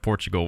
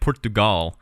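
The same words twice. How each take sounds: First: Pronounced in the usual English way. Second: Pronounced in an unusual, foreign-sounding way. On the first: This is how an English speaker normally says it. "instead of Portugal" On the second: This is how others say the name. "they also keep saying Portugal"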